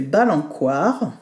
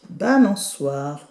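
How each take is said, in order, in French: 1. Le c se prononce comme un son k. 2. Le c se prononce comme un son s. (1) "Si on enlève la cédille, ça fait" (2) "la cédille oblige la lettre C à faire SE"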